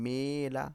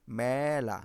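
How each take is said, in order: First: "মেলা" said me-la, the close e drawn out; close e sound. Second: "মেলা" said mæ-la, the open æ drawn out; open æ sound. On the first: Teacher testing the spelt form on pupils, close e. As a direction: stretch "মেলা" as meela, as spelt. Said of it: "আমরা কি উচ্চারণ করছি?". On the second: Teacher showing pupils the spoken form, open æ. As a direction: stretch "মেলা" as mææla, louder. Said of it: "এ উচ্চারণ করছি". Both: Shown as a demonstration.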